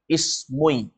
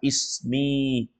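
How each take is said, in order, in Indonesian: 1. Huruf m diikuti vokal u. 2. Huruf m diikuti vokal i. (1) "Coba didommahkan. ... Susah orang baca" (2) "cocok dibaca ismi"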